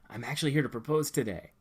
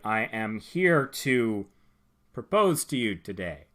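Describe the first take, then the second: First: It sounds loose and casual. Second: It sounds stiff and robotic.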